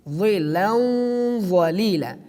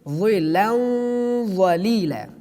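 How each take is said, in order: Both takes have the same delivery.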